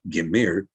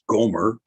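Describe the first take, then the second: First: The first vowel sounds like 'i'. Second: The first vowel sounds like 'o'. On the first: The speaker calls it right. "It was Gimir" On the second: The speaker calls it wrong. "you're going to read that as Gomer, but Gomer is not correct at all"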